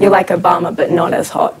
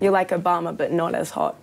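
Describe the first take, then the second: First: It is said more loudly. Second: It is said at normal volume.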